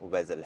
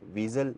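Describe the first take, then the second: First: The first vowel sounds like 'ay' in 'day'. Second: The first vowel sounds like a long 'ee'. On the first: The speaker calls it right. "ये actual में वेजल है" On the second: The speaker calls it wrong. "इसको हम pronounce वीजल नहीं करेंगे"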